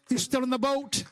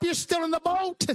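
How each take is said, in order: First: Said in the usual way. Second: High-pitched preacher's proclamation; emphatic exhortation. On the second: Real, not acted. Emphatic line, then repeated lower.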